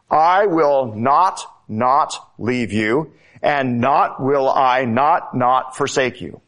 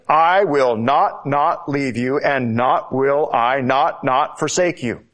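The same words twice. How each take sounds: First: Each "not" pressed, slow and deliberate; slow, insistent literal Greek reading; emphatic negation. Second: Firm restatement of the promise; strong statement. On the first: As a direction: hammer every "not" in "I will not, not leave you". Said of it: "this emphatic negation". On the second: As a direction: land each "not" in "not forsake you" with weight. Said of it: "There is a strong statement". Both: Shown as a demonstration.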